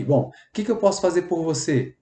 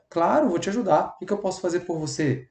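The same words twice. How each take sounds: First: Gentle helpful repeat of the offer. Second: Gentle, softer helpful offer; empathetic reply. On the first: Empathetic worker repeating offer, gentle. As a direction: ask kindly how you can help. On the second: Empathetic worker answering a request, gentle offer. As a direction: offer help kindly and softly. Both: Shown as a demonstration. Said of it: "quando você é empático".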